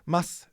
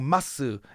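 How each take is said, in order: First: The final u vowel is dropped. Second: The final u vowel is fully pronounced. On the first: "You would know mas" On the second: "they're not saying masu"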